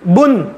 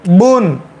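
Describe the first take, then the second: First: The vowel is kept short. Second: The vowel is drawn out long. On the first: The speaker calls it right. "बुन जी" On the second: The speaker calls it wrong. "अगर खींचेंगे तो वाव का इजाफा होगा। बून गलत है"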